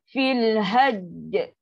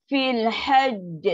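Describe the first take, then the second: The two takes are said the same way.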